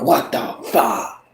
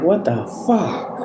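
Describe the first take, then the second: First: Slow, quiet what the fuck, falling; awed exclamation. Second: Slow puzzled what the fuck, rising at the end; confused people asking; baffled question. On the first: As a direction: say it in hushed amazement. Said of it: "And other people are like". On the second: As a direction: ask it confused, voice going up. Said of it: "Some people is like". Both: Retold or imitated.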